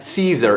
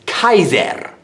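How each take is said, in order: First: The word begins with a soft S sound. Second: The word begins with a hard K sound. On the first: The speaker calls it wrong. "it's not Caesar" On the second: The speaker calls it right. "the letter C is pronounced as a K"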